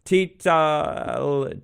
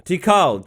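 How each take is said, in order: First: "Tital" said with a T in the middle, tee-tal; fumbling "Tital", tee-tal; wrong name attempt. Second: "Tikal" said as tee-kal, with a K sound; finally landing "Tikal" as tee-kal; corrected name. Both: Shown as a demonstration. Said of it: "Tikal is the name of the temple".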